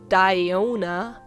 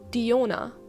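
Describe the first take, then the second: First: The name is said with a non-German pronunciation. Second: The name is said with the German pronunciation. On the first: "in German we would never say Diona" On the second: "We just call her Diona"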